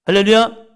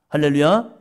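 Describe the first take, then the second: First: Higher, louder hallelujah rising at the end. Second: Said in the usual way. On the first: Real, not acted. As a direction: push it up a level. (더 높고 크게 외치는 할렐루야)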